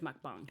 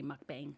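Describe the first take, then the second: First: The second syllable is said like 'bong'. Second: The second syllable is said as spelled, 'bang'. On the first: This is believed to be the correct pronunciation. The speaker calls it right. "I'm pretty sure it's mukbang" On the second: This is the common spelling-based pronunciation. The speaker calls it wrong. "people usually say mukbang"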